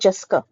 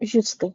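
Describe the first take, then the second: First: The first vowel is an uh sound. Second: The first vowel is an oo sound. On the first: The speaker calls it wrong. "Not जस्का" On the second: The speaker calls it right. "जुस्का, नॉट जस्का"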